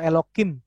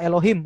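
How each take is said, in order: First: The middle consonant is a hard k sound. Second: The middle consonant is a soft h sound. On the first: The sound is changed out of respect for the divine name. "huruf Hei ini juga di dalam sini tuh diganti dengan K" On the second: This is the name as written. "salah satu nama Tuhan ini contoh aja adalah Elohim"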